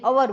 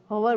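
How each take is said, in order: First: "અવર" opened on the vowel, no H; silent H. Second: "હવર" opened with a breath of H; wrongly sounded H. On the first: Teacher giving learners the correction, "અવર" with silent H. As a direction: drop the H entirely in "અવર". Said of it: "અવર બોલાય". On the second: Teacher correcting a common mistake, "હવર" with H sounded. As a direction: pronounce the H at the start of "હવર". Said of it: "હવર બોલાય નહીં". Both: Shown as a demonstration.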